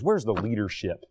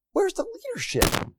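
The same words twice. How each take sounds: First: Said in the usual way. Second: Much higher, exasperated cry of where's; incredulous repeat. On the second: Real, not acted. Preacher demanding leadership from colleges, in a high incredulous cry. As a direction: throw the question up in disbelief. Asks the question, then repeats it.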